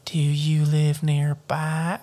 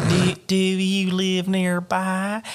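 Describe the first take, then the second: First: Put-on slow country-accented drawl; creepy girl with a country twang. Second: Higher, exaggerated slow country drawl; hammed-up country-accented old lady. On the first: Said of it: "she has a country accent". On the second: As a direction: stretch it into a high country twang. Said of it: "she has a country accent to me". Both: A narrator's reading.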